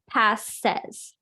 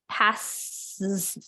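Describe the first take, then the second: First: The vowel before the final s is clear. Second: The vowel before the final s is dropped. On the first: The speaker calls it right. "So you need that eh" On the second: The speaker calls it wrong. "or else you it's hard to say, like"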